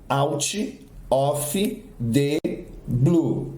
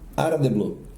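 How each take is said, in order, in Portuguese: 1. Lida com sons do português, palavras separadas. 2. Dita com sons do inglês, palavras ligadas entre si. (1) "Com registro auditivo do português" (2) "com o som em inglês ... E já com as conectivas"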